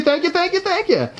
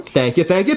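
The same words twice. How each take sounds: First: Much higher silly thank-yous; high squeaky voice. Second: Said in the usual way. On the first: Pretend.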